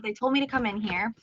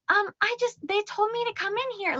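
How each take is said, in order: First: Said in the usual way. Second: Put-on high, small child voice, much higher; a little girl explains herself in a high voice; little kid voice. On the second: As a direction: speak like a shy little girl. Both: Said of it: "in her, like, little kid voice".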